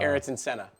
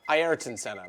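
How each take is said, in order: First: The name is said with an English pronunciation. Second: The name is said with a Brazilian Portuguese pronunciation. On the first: The speaker calls it wrong. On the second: The speaker calls it right.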